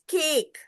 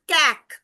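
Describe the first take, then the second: First: The vowel is a long a sound. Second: The vowel is a short a sound. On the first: The speaker calls it right. "It is cake" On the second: The speaker calls it wrong. "It is not cack"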